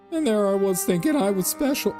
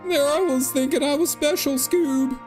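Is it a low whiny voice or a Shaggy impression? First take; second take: low whiny; Shaggy impression. First: It is said in a low, whiny voice. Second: It is said in a Shaggy impression voice.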